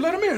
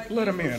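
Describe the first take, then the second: First: High-pitched, insistent retold order; insistent repeat. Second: Said in the usual way. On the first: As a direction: imitate a star insisting to his guard. Star repeats it after disbelief.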